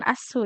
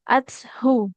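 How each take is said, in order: First: The middle consonant is a plain s sound. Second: The middle consonant is a soft th sound. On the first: The speaker calls it wrong. "jadi jangan asu ya" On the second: The speaker calls it right. "Mim ba'di ma ja'atshu. Coba Ibu"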